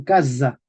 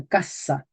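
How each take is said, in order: First: Casa as CA-za with a voiced z; medieval pronunciation. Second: Said in the usual way. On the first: Shown as a demonstration. Teacher correcting the modern reading, medieval pronunciation. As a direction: buzz the s in casa. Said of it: "decían casa". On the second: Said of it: "no decían casa".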